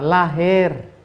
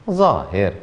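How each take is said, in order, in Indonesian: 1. Kata ini diawali dengan bunyi L. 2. Kata ini diawali dengan bunyi Z.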